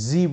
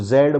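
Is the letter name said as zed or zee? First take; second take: zee; zed. First: The letter name ends in an ee sound. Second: The letter name ends in a d sound. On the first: "बहुत सारे लोग इसको जी बोलते हैं" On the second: "मैं इसको जेड बोलता हूँ"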